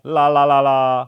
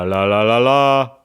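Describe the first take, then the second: First: The voice sounds flatter, with less bass. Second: The voice sounds fuller, with more bass. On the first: "It doesn't have as much bass. It's kind of like a little bit flatter" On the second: "I'm back on the Rode microphone"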